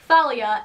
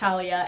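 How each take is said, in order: First: The name begins with a 'th' sound. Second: The name begins with a plain 't' sound. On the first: The speaker calls it right. "apparently it is Thalia" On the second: The speaker calls it wrong. "and not Talia"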